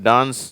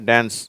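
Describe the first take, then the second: First: It is said in a British accent. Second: It is said in an American accent. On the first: "British உச்சரிப்பு" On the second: "அமெரிக்க உச்சரிப்பு"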